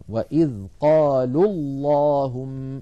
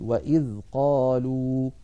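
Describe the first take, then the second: First: Slow "وإذ قالوا اللهم", long u of قالوا dropped in the link; joined recitation. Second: Slow "وإذ قالوا", stopped on a full long u; stopping on the word. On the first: Teacher demonstrating linked reading, "قالوا" losing its long u. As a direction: run قالوا into اللهم as "qalullahumm", slowly. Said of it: "سقط الأول من النطق وصلا". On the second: Teacher demonstrating a pause, "قالوا" keeping its long u. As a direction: halt after قالوا, holding its final waw as "qaluu". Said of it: "فإن وقفنا نقول". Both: Shown as a demonstration.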